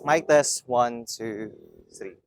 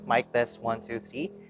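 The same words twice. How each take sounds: First: Background noise is reduced as much as possible. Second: Background noise is only lightly reduced. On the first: "the highest one would be color yellow" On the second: "that's the first level of noise reduction"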